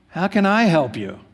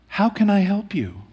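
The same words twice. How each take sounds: First: It sounds dismissive and unhelpful. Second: It sounds caring and concerned.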